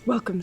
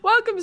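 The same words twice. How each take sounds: First: It is spoken in a put-on old man voice. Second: It is spoken in the speaker's normal voice. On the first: "My old man voice" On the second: "She gives up on the accent"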